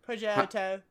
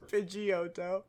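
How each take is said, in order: First: It is said with a British accent. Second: It is said with an American accent.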